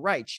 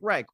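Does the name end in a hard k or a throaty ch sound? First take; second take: throaty ch; hard k. First: The name ends in a throaty ch sound. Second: The name ends in a hard k sound.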